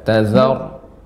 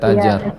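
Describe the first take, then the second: First: The middle consonant is a z sound. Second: The middle consonant is a j sound. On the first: The speaker calls it right. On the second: The speaker calls it wrong.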